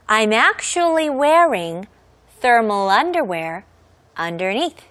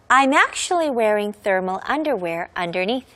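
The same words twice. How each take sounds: First: The sentence is said at a slower pace. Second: The sentence is said at a faster pace.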